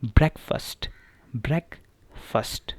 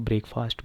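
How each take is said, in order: First: ब्रेकफास्ट as "brek-fust", short e, weak second part; slow and clear, ब्रेकफास्ट with a short brek; correct pronunciation. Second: ब्रेकफास्ट said "brake-fast" with a long a; common wrong way. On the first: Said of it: "इसकी correct pronunciation क्या है?". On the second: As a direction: spell out ब्रेकफास्ट as two full words. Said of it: "आमतौर पे लोग इसको ब्रेकफास्ट बोलते हैं". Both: Shown as a demonstration.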